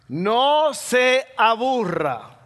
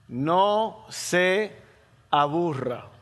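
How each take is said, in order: First: It is said fast, running together. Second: It is said slowly and clearly.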